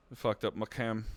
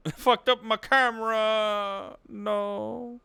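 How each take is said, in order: First: Said in the usual way. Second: High, drawn-out mock lament; hammed-up cry of dismay, stretched out; mock wail. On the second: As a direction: wail it slowly in exaggerated despair. Mock lament over broken camera.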